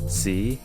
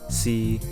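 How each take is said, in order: First: It is said with Cantonese tone five. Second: It is said with Cantonese tone three.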